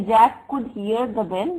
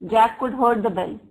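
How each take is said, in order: First: Said in the usual way. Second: "heard" hit loudly as the error; loud example sentence, "heard" stressed. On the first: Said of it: "that is right". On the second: Shown as a demonstration. Teacher showing students the wrong verb form, stressing "heard". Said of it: "This is wrong".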